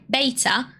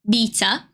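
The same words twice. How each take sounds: First: The word is said in an American pronunciation. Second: The word is said in a British pronunciation. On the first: The speaker calls it wrong. "which is the American pronunciation rather than the British" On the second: The speaker calls it right. "proper British way"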